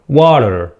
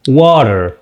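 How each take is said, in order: No difference in how they are said.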